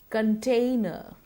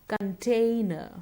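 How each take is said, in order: The two takes are said the same way.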